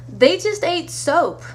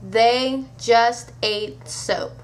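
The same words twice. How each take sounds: First: THEY pitched high, slow delivery; exasperated emphasis. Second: Very slow, deliberate "They. Just. Ate. Soap."; word-by-word emphasis. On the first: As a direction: punch "they" high, then drop through "just ate soap". Closing punchline, first take. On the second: Punchline repeated word by word. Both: Acted.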